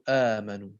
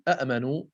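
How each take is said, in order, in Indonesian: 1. Diawali satu hamzah dan vokal panjang. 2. Diawali dua hamzah yang terpisah. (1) "قالوا آمنوا" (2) "بدلا من قولهم أأمنوا"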